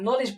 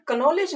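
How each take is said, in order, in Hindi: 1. इस शब्द की शुरुआत सीधे n ध्वनि से होती है। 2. इस शब्द की शुरुआत k ध्वनि से होती है। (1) "नॉलेज पढ़ते हैं" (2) "कनॉलेज नहीं"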